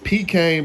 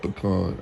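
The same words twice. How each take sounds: First: It is said with the standard pronunciation. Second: It is said with the Texas pronunciation.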